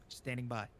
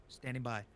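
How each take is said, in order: The two takes are said the same way.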